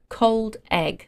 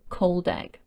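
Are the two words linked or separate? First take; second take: separate; linked. First: The two words are said separately. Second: The two words are joined into one.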